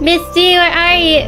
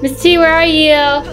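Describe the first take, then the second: First: The voice sounds sweet and innocent. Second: The voice sounds ordinary, not especially innocent. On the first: The speaker calls it right. "I need to sound more innocent" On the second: The speaker calls it wrong. "I don't sound innocent enough"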